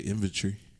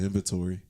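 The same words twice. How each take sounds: First: It is said with a British pronunciation. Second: It is said with an American pronunciation. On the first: "people in the U K say" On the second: "instead of"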